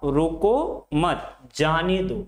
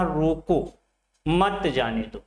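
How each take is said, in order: First: "रोको मत" together, break, then "जाने दो"; pause after मत. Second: "रोको", short break, then "मत जाने दो" together; pause after रोको. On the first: Teacher reads the second sentence meaning to let someone go, pause after मत. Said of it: "दूसरे वाक्य में क्या कह रहा है". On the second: Teacher reads the first sentence meaning to stop someone, pause after रोको. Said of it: "मत के बाद ... रोको के बाद". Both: Shown as a demonstration.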